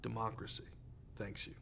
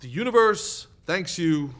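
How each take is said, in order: First: Solemn hushed thanks. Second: Louder, slow, pompously grand; overblown booming thanks. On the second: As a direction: top the others with mock grandeur. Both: Acted. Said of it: "Would you stop?".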